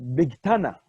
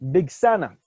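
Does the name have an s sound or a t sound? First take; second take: t sound; s sound. First: The middle consonant is a t sound. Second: The middle consonant is an s sound. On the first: "Sfardim will pronounce it Big Tana"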